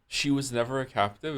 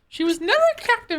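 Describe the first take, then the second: First: It is said in an ordinary adult voice. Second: It is said in a put-on baby voice.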